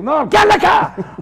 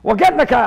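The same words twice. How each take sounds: First: Imitating an old man's high, loud order; exasperated, higher mock bellow; insistent shout. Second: Imitated old man's louder, brisk offer; louder but not yet yelling; brusque offer. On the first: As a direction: yell it as an order, no argument. Old man insists, overruling him. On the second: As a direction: offer a lift as a matter of course. Old man offers a ride.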